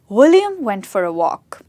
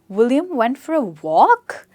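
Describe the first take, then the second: First: The pitch goes from high to low. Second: The pitch goes from low to high. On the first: The speaker is confident and certain. "Falling tone, from high to low" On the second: It asks a question or shows surprise. "This is the rising tone. So I go from low to high"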